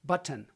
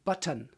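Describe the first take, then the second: First: The T in the middle is hit hard. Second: The T in the middle is hit hard.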